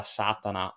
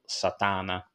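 First: Satana stressed on the first syllable, SA-ta-na; first pronunciation variant. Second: Satana stressed on the middle syllable, sa-TA-na; alternative pronunciation. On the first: Podcaster unsure of an actress's surname, Satana stressed SÀ-ta-na. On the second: Podcaster offering the other surname reading, Satana stressed sa-TÀ-na. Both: Shown as a demonstration. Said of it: "non so come si pronunci".

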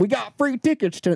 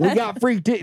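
First: Exaggerated small-town accent; Grand Junction accent. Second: High mock country accent redo; hammed-up country twang imitation; imitating the accent. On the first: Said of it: "that was a Grand Junction accent". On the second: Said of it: "that was not a New York accent".

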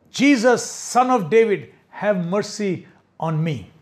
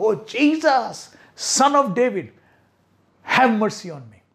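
First: Mock shout. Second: Louder desperate cry. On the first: Blind Bartimaeus calling to Jesus, a mild mock shout. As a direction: call out to be heard over the crowd. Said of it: "He shouted". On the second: Retold or imitated. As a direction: cry out all the more above the hush. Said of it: "He shouted all the more loudly".

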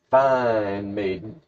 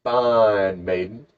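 First: FINE stretched out slowly; drawn-out emphasis. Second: FINE held extra long, very slow; hugely drawn-out FINE; exaggerated emphasis. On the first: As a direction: linger on the word FINE. Storyteller relishing the maiden's looks. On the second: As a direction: stretch FINE right out, then drop onto maiden. Corrects himself for stronger emphasis. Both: Shown as a demonstration.

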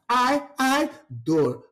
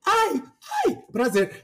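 First: High AI, dropping on DOR; pained. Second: Pleasured. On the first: Host demonstrating pain against pleasure, pained. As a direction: yelp ai, then fall heavily on dor. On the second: Host demonstrating pleasure against pain, pleasured. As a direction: squeal ai, then ease down onto prazer. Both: Shown as a demonstration. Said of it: "sentiu a entonação da diferença".

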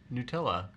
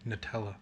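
First: Nutella said "new-TELL-uh"; "new" pronunciation. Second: Nutella said "nuh-TELL-uh"; "nut" pronunciation. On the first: Real, not acted. Insisting to friend it's new, "new-TELL-uh" Nutella. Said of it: "Why do you say Nutella?". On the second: Shown as a demonstration. Asking friend how to say Nutella, "nuh-TELL-uh". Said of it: "how do you say Nutella?".

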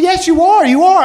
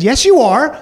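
First: Higher and louder, hammering you are; stubborn insisting. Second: A touch higher, firm yes, you are; insisting. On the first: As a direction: dig in and refuse to back down. Girlfriend insists again, stronger. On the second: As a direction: contradict him with mild conviction. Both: Retold or imitated.

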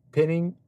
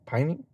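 First: "pinning" said with a short i, like pin; "pinning", short i as in pin, the mistaken reading; wrong pronunciation. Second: "Pining" said with a long i, like pine, rising as a question; "Pining?", long i as in pine, tentative rise; corrected pronunciation. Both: Shown as a demonstration. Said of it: "what is it?".

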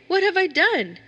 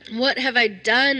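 First: Much higher, louder terrified cry of What have I done?; frightened cry. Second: Slow, drawn-out despairing What have I done?; crying out again. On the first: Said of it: "I cried out". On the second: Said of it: "I cried again". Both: A narrator's reading.

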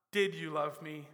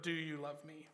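First: "Did" pressed hard, past tense set apart; stress on did. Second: Softer, with "Do" pressed as the present question; stress on do. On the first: Preacher contrasting the past question, stressing "Did". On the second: Preacher showing Jesus asks now, stressing "Do". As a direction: lean gently on "Do" to mark now. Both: Shown as a demonstration.

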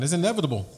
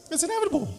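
First: Said in the usual way. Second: "inevitable" squeaked much higher, falling at the end. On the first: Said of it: "repeated line". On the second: Shown as a demonstration. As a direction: jump way up in pitch on "It's inevitable". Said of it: "repeated higher".

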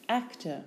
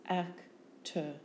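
First: Said in the usual way. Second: "Actor" split into ac, tor; syllable by syllable. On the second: Shown as a demonstration. Teacher giving syllables for spelling, Actor in two beats.

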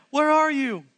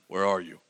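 First: High, loud call across the garden. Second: Low, booming voice of God; deep God voice. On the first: Acted. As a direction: call out like searching for someone. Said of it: "the Lord God called to the man". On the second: Shown as a demonstration. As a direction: drop way down as God calling out. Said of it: "He talks like that".

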